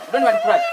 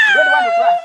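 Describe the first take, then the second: First: Mock scolding. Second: High, loud scolding; shouting rebuke. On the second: Acted. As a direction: yell it at him like an angry chief. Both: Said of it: "let me make you to cry".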